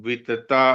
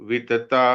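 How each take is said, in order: The two takes are said the same way.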